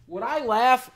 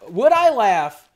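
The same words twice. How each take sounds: First: Said in the usual way. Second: Would I laugh said louder and drawn out slowly. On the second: Shown as a demonstration. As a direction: belt out the question slowly. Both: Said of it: "repeats a chat question aloud".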